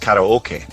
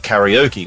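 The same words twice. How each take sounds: First: It is said with a Japanese-style pronunciation. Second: It is said with the usual English pronunciation. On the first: This is how the word should be said. The speaker calls it right. "when really it's karaoke" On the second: This is how people commonly say it. The speaker calls it wrong. "we also call it karaoke"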